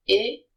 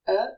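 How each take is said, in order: First: "E" as French é, like "ay" without a glide; closed E sound. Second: "E" as French schwa, like "uh"; schwa E sound. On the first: Teacher listing ways E can be said, closed é. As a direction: say "E" loud and lifted, as a clear é. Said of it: "it can be pronounced E". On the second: Teacher listing ways E can be said, schwa. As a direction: say "E" as a neutral, rounded "uh". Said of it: "it is pronounced E if it is in the first syllable". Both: Shown as a demonstration.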